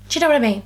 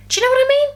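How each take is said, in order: First: Said in the usual way. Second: High and loud appeal to viewers; loud emphatic question. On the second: Real, not acted. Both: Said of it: "repeats it".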